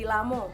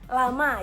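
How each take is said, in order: First: The word ends with an 'o' vowel. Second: The word ends with an 'a' vowel. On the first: This is the Bengkulu dialect form. "itu huruf A-nya diganti dengan O" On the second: This is the standard Indonesian form. "kalau ada kata yang berakhiran dengan huruf A"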